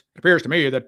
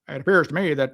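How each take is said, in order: First: It is said in a put-on imitation voice. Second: It is said in the speaker's normal voice.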